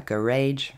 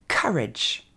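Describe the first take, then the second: First: COURAGE as "kuh-RAYDGE"; wrong pronunciation. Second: COURAGE as "KUH-redge", slowly, stressed up front; slow teaching model of COURAGE; correct English pronunciation. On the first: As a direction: say COURAGE evenly with a long "aydge" ending. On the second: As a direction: punch KUH, short falling "redge" in COURAGE. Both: Shown as a demonstration.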